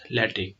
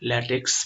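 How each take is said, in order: First: The word ends with a plain k sound. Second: The word ends with a ks sound. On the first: The speaker calls it right. "which is pronounced as ल्याटिक" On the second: The speaker calls it wrong. "ल्याटेक्स भनेर pronunciation गर्न चाहिँ मिलेन"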